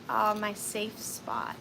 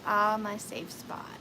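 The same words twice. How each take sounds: First: Slow, soft sigh of contentment; daughter's sleepy words, softly; soft quoted child. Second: Slow, soft contented sigh; daughter's words again, tender; soft quoted child. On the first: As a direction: breathe it out gently, slowly. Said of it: "and she said". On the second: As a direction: let it out gently, slowly. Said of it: "she just". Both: Retold or imitated.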